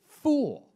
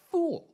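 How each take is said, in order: First: High, loud frustrated yell of "Fool". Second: Very high loud cry of "Fool"; frustrated yell. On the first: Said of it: "this is emotive. He is, like, yelling". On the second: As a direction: shout "Fool" in exasperation. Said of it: "He's so frustrated". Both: Acted.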